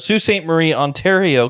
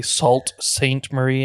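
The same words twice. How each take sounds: First: "Sault Ste. Marie" said as soo saint marie; local pronunciation. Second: "Sault Saint Marie" said as sawlt saint marie, spelled out; wrong pronunciation. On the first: Proud local correcting listeners, "Sault Ste. Marie" as soo saint marie. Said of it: "Some people will say". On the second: Mocking the outsiders' reading of "Sault Saint Marie", sawlt saint. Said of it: "and shame on you". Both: Shown as a demonstration.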